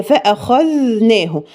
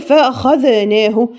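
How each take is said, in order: First: فأخذناه slow and smooth, no echo; correct reading. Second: فأخذناه with a false echo on the خ; wrong qalqala. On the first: Teacher modelling the correct recitation. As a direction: say فأخذناه slowly and cleanly. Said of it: "هي". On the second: Teacher imitating a mistake. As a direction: bounce the خ. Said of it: "ما ينفعش أقول". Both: Shown as a demonstration.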